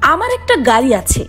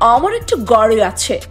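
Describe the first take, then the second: First: It is said in a plain native Bangla accent. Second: It is said in a foreign-sounding, English-like accent. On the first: The speaker calls it right. "একটা simple sentence" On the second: The speaker calls it wrong. "যেন তারা বাংলা ভাষা শেখেইনি"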